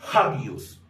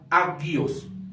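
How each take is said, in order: First: The word begins with a breathy h sound. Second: The word begins directly with the vowel. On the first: The speaker calls it right. "se leería de la siguiente manera" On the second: The speaker calls it wrong. "No se leería agios"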